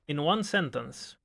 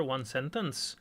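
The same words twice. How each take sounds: First: In one sentence slow, with one leaned on and falling; slow, stressed one sentence. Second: Said in the usual way. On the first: Shown as a demonstration. Streamer teasing chat's request, slowly stressing one. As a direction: drag out one for emphasis.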